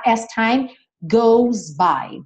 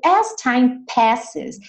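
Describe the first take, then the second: First: As time goes by said slowly; slow quoted phrase. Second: As time passes said slowly; slow quoted phrase. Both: Shown as a demonstration. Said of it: "slow quoted phrase".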